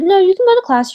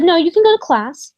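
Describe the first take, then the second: First: Sharp dismissive mock, much higher and louder; mocking the director. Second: Curt dismissive mock of the director, higher and louder. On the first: Retelling the director's second refusal, mock sharp and loud. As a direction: snap it like an impatient official. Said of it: "she said". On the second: Retelling how the director refused her call, mock curt. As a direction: brush her off like a bored official. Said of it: "And she said".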